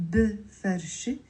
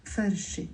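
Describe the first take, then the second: First: "بفرشة" wrongly as three syllables, buh-far-she; mistaken extra vowel. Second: "بفرشة" as bfar-she, no vowel after b; two-syllable pronunciation. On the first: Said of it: "It's not بفرشة". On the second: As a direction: run b straight into f in "بفرشة". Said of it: "It's two syllables". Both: Shown as a demonstration.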